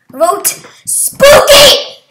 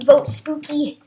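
First: Top-of-the-lungs yell, high and drawn out; very loud, high campaign shout. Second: Said in the usual way. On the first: Real, not acted. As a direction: yell it with all your lungs. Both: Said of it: "I'm yelling at the top of my lungs".

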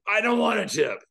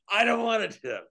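First: Angry cabbie yell, louder and higher; retold yell. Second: Mild retold yell. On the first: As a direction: bark it back like an offended driver. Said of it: "The guy yells at me". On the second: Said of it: "he yelled it worse than that".

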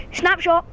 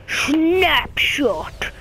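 First: Said in the usual way. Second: Slow, drawn-out raspy whisper; game character impression. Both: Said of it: "He kinda talks like this".

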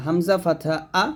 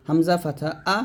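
No difference in how they are said.

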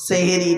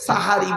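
First: সেহেরি with e vowels, se-he-ri; wrong form seheri. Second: সাহারি with open a vowels, sa-ha-ri; correct form sahari. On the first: Preacher rejecting the everyday word, seheri with e. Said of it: "সেহেরি নয়". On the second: Preacher naming the pre-dawn meal, correct sahari. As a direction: say সাহারি as the Arabic word. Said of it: "সাহারি বলে". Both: Shown as a demonstration.

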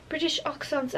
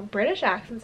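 First: Put-on shaky-footed try at a British accent; attempted British accent. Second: Said in the usual way. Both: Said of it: "now I can't do a British accent".

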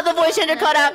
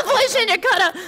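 First: Distorted voice-changer voice; warped by a voice changer. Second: Laughing through the words; laughing at his own mishap. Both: Real, not acted.

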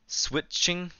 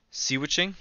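First: Switching said with sw run together, no "see"; higher, questioning Switching, starting straight on sw; trial pronunciation. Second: Seawitching said as sea-witching, rising like a question; higher, questioning Seawitching, "see-witching"; trial pronunciation. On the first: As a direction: try Switching as "swit-ching", rising high like a question. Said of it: "Is it switching?". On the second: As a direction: try Seawitching with a separate "see" at the front. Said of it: "if you pronounce that word right". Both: Shown as a demonstration.

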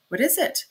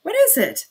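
First: A sharp, irritated question at the door; annoyed, a little higher, rising at the end; annoyed cry. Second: Much higher and louder, anxious; uneasy, pushing the question out high; uneasy repeat. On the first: Magistrate calling out at the noise, annoyed. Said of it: "cried Porfiry Petrovitch, annoyed". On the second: Magistrate calling out again at the door, uneasy. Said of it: "repeated, uneasily". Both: A narrator's reading.

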